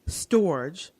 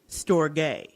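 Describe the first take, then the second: First: It is pronounced in an anglicized way. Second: It is pronounced in a Greek way.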